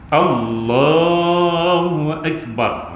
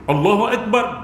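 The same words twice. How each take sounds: First: The vowel after the l is held two counts. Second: No vowel is held; everything stays short. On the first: The speaker calls it right. "dia tarik panjang tu makna dia dua harakat" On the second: The speaker calls it wrong. "Kalau dia tak panjang makruh"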